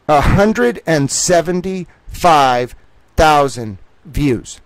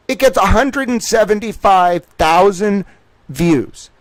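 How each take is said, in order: First: Every word drawn out slowly; slow emphatic repeat. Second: Said in the usual way. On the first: Real, not acted. Stressing the video's views to listeners, slow and emphatic. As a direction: spell the number out, slow and heavy. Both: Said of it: "repeats for emphasis".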